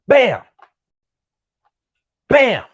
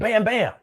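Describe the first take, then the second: First: A clear pause separates the two words. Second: The two words come quickly with no gap. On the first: The second shot was fired deliberately after a wait. "Like there was a pause in between" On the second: The shots came fast, as in a struggle. "it wasn't bam, bam"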